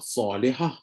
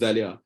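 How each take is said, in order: First: The name begins with an s sound. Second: The name begins with a z sound. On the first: This is the original Arabic form of the name. "Contoh Salihah yang sebenarnya" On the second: This is a later local change of the name. "ditukar jadi Zalihah"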